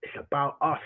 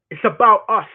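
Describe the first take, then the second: First: Said in the usual way. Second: Emphatic repeat. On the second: Shown as a demonstration. Repeats line, second time louder.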